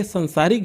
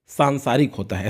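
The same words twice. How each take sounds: First: First सांसारिक with short "san"; wrong form demonstrated. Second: सांसारिक with long "saan"; correct form demonstrated. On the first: Teacher restates the misreading, wrong form demonstrated. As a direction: say सांसारिक as san-saa-rik. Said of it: "सांसारिक जो है सांसारिक होता है". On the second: Teacher shows students how to read it, correct form demonstrated. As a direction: say सांसारिक as saan-saa-rik. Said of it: "ऐसे पढ़ेंगे". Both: Shown as a demonstration.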